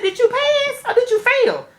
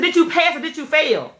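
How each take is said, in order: First: Much higher, slow and careful; high polite question. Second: Said in the usual way. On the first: Retold or imitated. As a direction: ask it sweetly, in a high voice. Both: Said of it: "I said".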